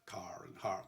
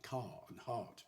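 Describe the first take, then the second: First: It is said with the R sounded, rhotic. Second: It is said in RP, R silent.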